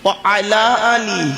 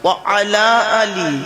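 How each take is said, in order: First: Wa and ala are said as separate words. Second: Wa and ala are said as separate words.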